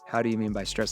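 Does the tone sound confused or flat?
flat. The question sounds flat, without confusion. The speaker calls it wrong. "I can't say"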